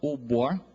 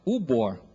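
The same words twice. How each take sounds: First: The first syllable is pitched lower. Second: The first syllable is pitched higher. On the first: It means chief. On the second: It means dog.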